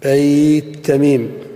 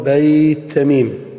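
Both takes have the same delivery.

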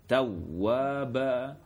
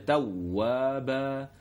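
The two takes are said the same way.

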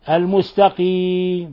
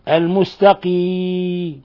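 Both takes have the same delivery.

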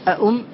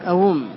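First: The second hamza is said as a glottal stop. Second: The second hamza is turned into a w sound. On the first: "هذا التحقيق" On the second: "ولك أيضا القلب تقول أوم"

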